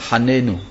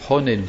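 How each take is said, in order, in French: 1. La première voyelle se prononce comme a. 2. La première voyelle se prononce comme o. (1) "l'anerie qui consiste à dire hanenu" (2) "c'est honenu, c'est un kamatz katan"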